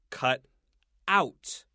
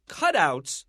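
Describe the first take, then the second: First: The stress is on the second part. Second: The stress is on the first part. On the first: It is a verb meaning to cut something out. "If it's a verb, we'll say cut out" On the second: It is a noun naming paper figures. "we want to stress the first syllable"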